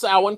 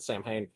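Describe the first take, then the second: First: The word is given its Irish pronunciation. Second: The word is read out letter by letter. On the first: The speaker calls it right. "it's a Celtic word" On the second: The speaker calls it wrong. "is not how you pronounce it"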